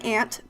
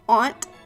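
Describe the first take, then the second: First: It sounds like the insect word. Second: It does not sound like the insect word. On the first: This is how others say it. The speaker calls it wrong. "I don't say aunt because that's not how it's spelled" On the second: This is the speaker's own way. The speaker calls it right. "So there's aunt"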